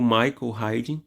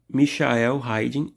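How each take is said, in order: First: The name is said with an English pronunciation. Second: The name is said without an English pronunciation.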